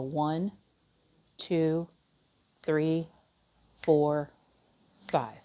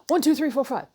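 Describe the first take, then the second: First: The numbers are counted slowly. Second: The numbers are counted quickly. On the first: The speaker calls it right. "Like one Mississippi" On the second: The speaker calls it wrong. "not a"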